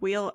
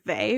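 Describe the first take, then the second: First: The name sounds like the word 'wheel'. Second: The name sounds like 'vay', starting with v. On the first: "I have heard wheel" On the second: "which is how I tend to pronounce it"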